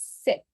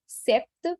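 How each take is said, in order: First: "sept" said like "set", no P sound; silent P. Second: "sept" with the P sounded before the T; P pronounced. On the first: Teacher corrects the French number, "sept" with silent P. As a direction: drop the P in "sept", keeping it short. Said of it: "but the P is silent". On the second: Teacher shows the tempting mistake, "sept" with an audible P. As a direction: wrongly voice the written P in "sept". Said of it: "pronouncing it with a P". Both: Shown as a demonstration.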